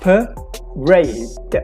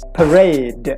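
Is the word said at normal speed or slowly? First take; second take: slowly; normal. First: The word is said slowly and drawn out. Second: The word is said at normal speed.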